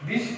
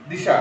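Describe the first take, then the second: First: Said in the usual way. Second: দিশা ending on an open "a" after sh; added final vowel. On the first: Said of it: "তাহলে দিশ, এটাকে যদি আমি". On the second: Shown as a demonstration. Teacher contrasting forms for students, দিশা with an extra final a. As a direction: add a vowel at the end, দিশা. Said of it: "শেষে একটা অতিরিক্ত".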